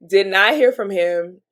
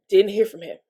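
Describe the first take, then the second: First: Did not hear from him, slow with not spelled out; slow down and hit "not"; deliberate, emphatic "Did not"; stress on not. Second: Said in the usual way. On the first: Shown as a demonstration.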